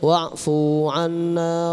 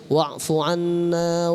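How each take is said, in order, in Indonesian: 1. Vokal dalam fu dibaca panjang. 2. Vokal dalam fu dibaca pendek. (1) "Jangan bacanya wa'fu anna waghfir lana, fu-nya jadi panjang" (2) "Ya bacanya wa'fu anna waghfir lana warhamna"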